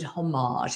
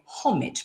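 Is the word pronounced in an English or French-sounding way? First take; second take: French; English. First: It is said with a put-on French pronunciation. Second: It is said the English way, rhyming with porridge. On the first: The speaker calls it wrong. "in a kind of faux French manner" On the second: The speaker calls it right. "that's the correct way of pronouncing it"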